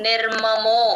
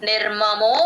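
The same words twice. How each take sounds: Both takes have the same delivery.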